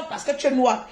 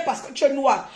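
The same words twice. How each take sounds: The two takes are said the same way.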